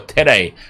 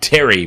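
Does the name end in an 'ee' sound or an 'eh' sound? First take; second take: eh; ee. First: The name ends with an eh sound. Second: The name ends with an ee sound. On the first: The speaker calls it right. "it'd be more Tere" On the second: The speaker calls it wrong. "I made it too much of a Y pronunciation"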